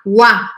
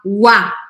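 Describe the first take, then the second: No difference in how they are said.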